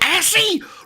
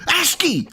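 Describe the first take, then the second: First: The word is said in a mangled, nonstandard way. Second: The word is said the standard way. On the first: The speaker calls it wrong. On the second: The speaker calls it right.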